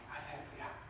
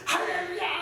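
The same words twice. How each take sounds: First: Soft, breathless whisper; a timid whispered praise; whispered hallelujah. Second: Much higher, louder shout; full-throated shout of praise; shouted hallelujah. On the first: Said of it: "이렇게 조용히". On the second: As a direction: yell it with full force. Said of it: "소리 지르면서 꽥꽥 지르면서". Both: Shown as a demonstration.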